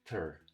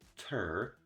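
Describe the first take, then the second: First: The syllable is very short and reduced. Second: The syllable is full and stressed. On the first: The speaker calls it right. "Very short, you don't put any effort at all" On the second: The speaker calls it wrong. "instead of saying ter"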